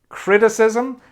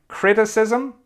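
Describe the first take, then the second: The two takes are said the same way.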